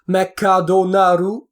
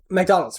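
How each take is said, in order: First: Extra vowels are inserted between the consonants. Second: The consonants are kept together without extra vowels. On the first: "they have to insert a vowel in between to make it work" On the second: "it's like McDonald's"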